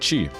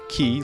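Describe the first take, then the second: First: The name is said as chi, starting with ch. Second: The name is said like the word key. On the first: The speaker calls it right. "is the right one is Mister Chi" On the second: The speaker calls it wrong. "like Key E Y or Key I"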